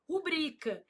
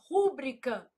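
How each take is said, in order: First: The stress is on the second syllable. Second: The stress is on the first syllable. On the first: The speaker calls it right. "O certo é o quê?" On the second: The speaker calls it wrong. "A pessoa vai lá e fala assim, ... mas está errado"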